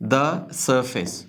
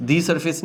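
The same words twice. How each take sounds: First: The surface slowly as "da suh-fis"; "da", silent R. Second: The surface as "dee sur-fis", higher; wrong "dee", R sounded. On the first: Teacher correcting the mistake, "da suh-fis". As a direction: stretch the surface, no R, the as "da". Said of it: "the surface नहीं". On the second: Teacher showing learners the mistake, "dee sur-fis". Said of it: "नहीं". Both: Shown as a demonstration.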